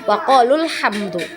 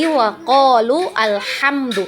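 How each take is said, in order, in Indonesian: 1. Kedua kata tersambung langsung tanpa hamzah. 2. Hamzah sebelum alhamdu dibaca terpisah. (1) "tapi langsung" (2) "kita tidak baca lagi"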